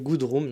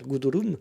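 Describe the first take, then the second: First: It sounds like the English words good room. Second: It sounds like a German name, like Gudrun. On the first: The speaker calls it right. "comme la chambre" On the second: The speaker calls it wrong. "j'ai l'impression d'être en Allemagne en fait"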